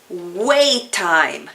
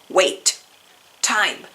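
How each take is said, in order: First: The two words run together without a break. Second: The two words are said apart with a break. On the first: The speaker calls it right. "los vamos a juntar" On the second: The speaker calls it wrong. "En vez de sonar wait, time"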